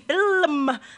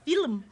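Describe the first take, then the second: First: The word is said with two syllables. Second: The word is said with one syllable. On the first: The speaker calls it right. "It's meant to be film, like poem" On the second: The speaker calls it wrong. "But not film"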